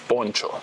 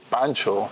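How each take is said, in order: First: The first vowel is a rounded 'o' sound. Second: The first vowel is an open 'a' sound. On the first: The speaker calls it right. "in Spanish it's poncho" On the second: The speaker calls it wrong. "in English they pronounce it wrong because they say Pancho"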